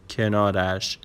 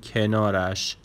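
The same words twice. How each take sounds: The two takes are said the same way.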